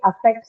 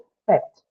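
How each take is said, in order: First: The first vowel is clear and fully pronounced. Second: The first vowel is a short, barely audible schwa. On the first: "I might say affect so that you can understand what it is" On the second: "in actuality, the present when you pronounce the word, it has to affect"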